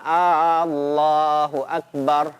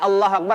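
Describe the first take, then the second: First: The opening vowel is drawn out long. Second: The opening vowel is kept short. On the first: It asks whether God is the greatest. The speaker calls it wrong. "A-nya dipanjangkan" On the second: It states that God is the greatest. The speaker calls it right.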